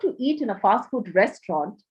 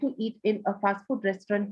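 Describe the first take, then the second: First: The voice varies, stressing the important words. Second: The voice stays flat on one pitch. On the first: The speaker calls it right. "See how I am stressing on words that are important" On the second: The speaker calls it wrong. "don't speak in a monotone... so don't speak like this"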